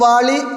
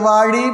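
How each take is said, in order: First: The middle consonant is a plain l sound. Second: The middle consonant is a retroflex zh sound. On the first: The word sounds like the word for bucket. The speaker calls it wrong. "வாளி என்ன பக்கிட்டு" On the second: The word is a blessing wishing long life. The speaker calls it right. "அந்த ழாவை எவ்வளோ அழகாக சொல்லி கொடுத்து உச்சரிச்சிருக்காங்க"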